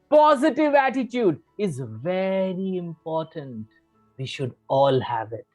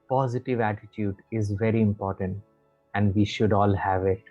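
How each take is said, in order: First: The voice is lively, with varied pitch. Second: The voice is flat, without modulation.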